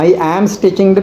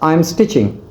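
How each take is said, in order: First: I and am are said as separate words. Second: I and am are joined into one syllable. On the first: The speaker calls it wrong. "பிரித்து பிரித்து சொல்ல தேவையில்லை" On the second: The speaker calls it right. "எப்படி சொல்கிறேன்?"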